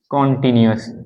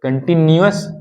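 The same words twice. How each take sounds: First: कॉन्टिन्यूअस with an open o in the first syllable; कॉन्टिन्यूअस with a rounded aw first vowel; कॉन्टिन्यूअस pronunciation. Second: कंटीन्यूअस with a short uh vowel in the first syllable; कंटीन्यूअस pronunciation. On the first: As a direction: say कॉन्टिन्यूअस as kon-tinuous. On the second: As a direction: say कंटीन्यूअस as kun-tinuous. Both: Shown as a demonstration. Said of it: "कंटी कॉन्टी".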